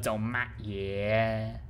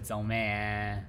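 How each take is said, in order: First: The hard stop consonant is clearly pronounced. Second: The hard stop consonant is dropped entirely. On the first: "a Guangdong Guangdong dialect" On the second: "the accent is very very loose"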